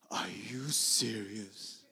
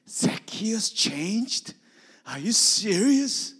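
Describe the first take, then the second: First: Slow, hushed whisper; awed whisper; stunned hush. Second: High, loud astonished cry; can't believe the news; incredulous shout; amazed disbelief. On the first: Retold or imitated. Bob stunned at the news. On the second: Acted. Matthew astonished at Zacchaeus' change.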